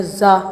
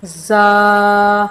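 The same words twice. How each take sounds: First: زا clipped short with a jolt, the wrong way; زا cut short with a jerk, as a mistake. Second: زا drawn out for one alif's length, firm; زا stretched evenly, the correct way; long za. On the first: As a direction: snap زا off abruptly, as children wrongly do. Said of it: "ایسے جھٹکا نہیں دینا". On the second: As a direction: hold زا long and firm, with no jerk. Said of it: "لمبا کرنا ہے ایک الف کے برابر". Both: Shown as a demonstration.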